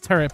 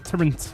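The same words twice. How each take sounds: First: The word ends with a plain T sound. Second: The word ends with an NT sound. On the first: The speaker calls it right. "I know it's turret" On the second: The speaker calls it wrong. "with an N, an nt"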